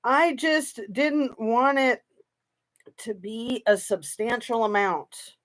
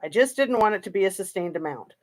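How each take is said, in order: First: Drawn-out mimicry of her words; a hint of imitating her careful tone; slow mocking quote. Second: A quick dismissive parrot of her words; lightly mocking, hurried quote; fast mocking repeat. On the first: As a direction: slowly parrot her line, half mocking. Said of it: "what does she say?". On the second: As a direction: rattle her line off quickly. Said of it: "That's what she says".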